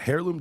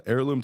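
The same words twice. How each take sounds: First: HEIRLOOM said with a sounded H, like "hair-loom"; sounded H slip. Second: Heirloom said with the H silent, like "air-loom". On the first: Host slips on a word, Heirloom with a sounded H. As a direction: start Heirloom on an audible H. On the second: Host corrects the slip, heirloom with a silent H. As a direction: start heirloom straight on the vowel, no H. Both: Real, not acted. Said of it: "I don't know why I said hair".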